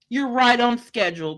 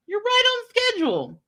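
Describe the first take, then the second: First: Said in the usual way. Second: Sarcastic repeat. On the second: Acted.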